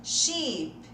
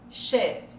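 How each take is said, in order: First: Sheep with a long, stretched "ee"; long acute í. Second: Sheep said short, like "shep" with closed ê; short, louder "Sheep" with an ê vowel; E of escola. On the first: Teacher contrasts both words, long ee first. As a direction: hold a spread í in "Sheep". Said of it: "aquele I bem agudo". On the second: Teacher contrasts both words, short ê. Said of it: "é o E de escola". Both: Shown as a demonstration.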